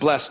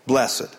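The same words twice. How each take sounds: First: The word is said as one syllable. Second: The word is said as two syllables. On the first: It is the everyday way of saying the word. "instead of blessed" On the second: The speaker wants to sound extra spiritual. "for those in the church who would like to appear extra spiritual"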